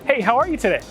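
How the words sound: The tone is eager and eager to please. The speaker wants the listener to like them. "They're trying to get that boss to like them"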